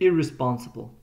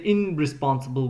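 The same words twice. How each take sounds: First: The prefix is said with an r sound. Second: The prefix is said with an n sound. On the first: The speaker calls it right. "we say irresponsible. The R sound affects this sound here" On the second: The speaker calls it wrong. "We don't say irresponsible"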